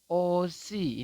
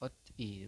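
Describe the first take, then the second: First: The final consonant carries over into the vowel. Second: The final consonant stays separate from the vowel. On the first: The speaker calls it right. "konsonan berubah bunyi menjadi awal" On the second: The speaker calls it wrong. "kalau Anda belum mengetahui tentang aturan baca yang nomor satu"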